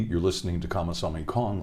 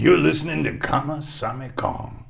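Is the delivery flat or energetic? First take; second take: flat; energetic. First: It is read flatly, like from a script. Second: It is performed with lively, showy energy. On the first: Someone is just reading the given template. The speaker calls it wrong. "most of the artists just kind of read it like that" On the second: Someone is doing it in their own personal style. The speaker calls it right. "I'll do it my own way. I'll show you how to do this"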